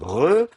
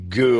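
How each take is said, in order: First: The first consonant is a throaty fricative. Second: The first consonant is a stop, like g. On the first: "fricatives si elles sont précédées d'un élément vocalique" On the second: "au lieu de prononcer ge"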